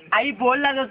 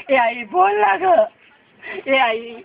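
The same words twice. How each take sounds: First: Said in the usual way. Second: Anguished plea. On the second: Acted. Son begging his dead mother to speak, wailing. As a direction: drag out the words, begging her to answer.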